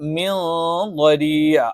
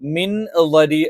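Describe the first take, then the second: First: The n sound is hidden, blended into nasal. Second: The n sound is pronounced fully and clearly. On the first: The speaker calls it right. "നമ്മൾ അവ്യക്തമാക്കി ഉച്ചരിക്കും" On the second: The speaker calls it wrong. "മിൻ ളരി എന്നല്ല"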